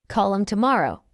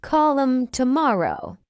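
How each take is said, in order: First: Quick, linked "Call 'em tomorrow"; fast English. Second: Slow, measured "Call 'em tomorrow"; slow model. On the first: Teacher trains learners' ears, fast. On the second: Teacher models the phrase for learners first, slowly. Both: Shown as a demonstration. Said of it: "fast English is not difficult".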